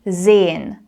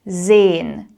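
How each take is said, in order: First: Some sounds of the word are swallowed. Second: Some sounds of the word are swallowed.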